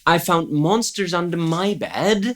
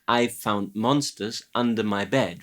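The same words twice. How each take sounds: First: The word "my" carries strong stress. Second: The word "bed" carries strong stress. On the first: The speaker calls it wrong. "There might be a stress issue there" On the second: The speaker calls it right. "with bed getting the heavy stress at the end and not so much the my"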